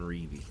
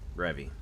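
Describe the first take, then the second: First: The first vowel is a long ee sound. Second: The first vowel is a short e sound. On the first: The speaker calls it wrong. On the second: The speaker calls it right.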